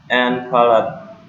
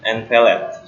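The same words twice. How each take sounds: First: "palate" with an open "ah" in the second syllable; mispronounced palate. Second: "palate" with a short "eh" in the second syllable; corrected palate. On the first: Presenter listing speech organs, slips on "palate" as "pa-laht". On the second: Presenter fixing a slip, says "palate" as "pa-let". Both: Real, not acted.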